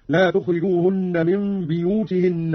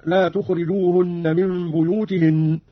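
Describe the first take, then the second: First: بيوتهن begun "biyū-" with an i; slow recitation, بيوتهن as "biyūtihinn"; Qalun's vowel on ba. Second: Said in the usual way. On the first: Shown as a demonstration. Teacher demonstrating Qalun's reading, بيوتهن said "biyūtihinn". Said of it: "بإسكان الباء من لفظ البيوت". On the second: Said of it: "من لفظ البيوت".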